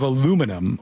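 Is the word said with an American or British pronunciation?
American. It is said the American way, four syllables.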